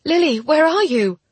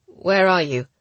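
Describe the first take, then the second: First: High, loud panicked call; frantic, high-pitched shout; mental scream. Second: Firm, grim question; louder, grimly businesslike. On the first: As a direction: scream it urgently to a distant friend. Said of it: "I added a mental scream". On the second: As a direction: ask it firmly and seriously, without panic. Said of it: "She sounded grim". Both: A narrator's reading.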